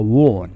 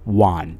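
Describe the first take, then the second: First: The vowel sounds like the vowel in 'on'. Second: The word sounds exactly like 'one'. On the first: The speaker calls it wrong. "لا ننطقها won" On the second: The speaker calls it right. "فإنها تنطق won. مثلها في النطق مثل رقم واحد في الإنجليزية"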